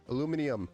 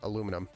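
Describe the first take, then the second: First: It is said the British way. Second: It is said the American way. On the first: "I can't even say it the way they say it" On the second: "We say it aluminum over here in the States"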